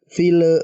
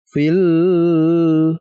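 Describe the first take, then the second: First: The final l is said with a bounce. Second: The final l is said with a nasal hum. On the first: "jangan dipantulkan teman-teman. Contohnya fil fil bukan" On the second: "dibaca dengan dengung misalkan fil, jangan"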